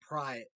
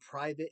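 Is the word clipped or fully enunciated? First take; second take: clipped; fully enunciated. First: The word is said fast with sounds dropped. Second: Every syllable of the word is clearly enunciated. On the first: "It becomes private" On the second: "it doesn't become private anymore"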